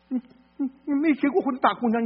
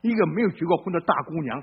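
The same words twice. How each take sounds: First: Higher, mocking rise on 过. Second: Said in the usual way. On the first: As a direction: scoff at the unmarried girl, pitch up on 过. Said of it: "repeats phrase mocking the dean". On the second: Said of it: "phrase repeated mockingly later".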